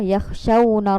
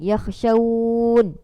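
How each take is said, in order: First: The vowel is short and runs straight into the next word. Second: The vowel before the final n is drawn out long. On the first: The reciter continues to the next word. "kita sambung, maksudnya kita baca biasalah" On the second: The reciter stops at this word. "kalau berhenti dia akan jadi mak lin, ... panjang"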